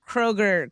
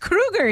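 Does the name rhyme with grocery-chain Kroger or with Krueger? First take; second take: Kroger; Krueger. First: The name sounds like the grocery chain Kroger. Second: The name sounds like the killer's name Krueger. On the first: The speaker calls it wrong. "we've been saying [name] [name]'s name wrong" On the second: The speaker calls it right. "It's [name]"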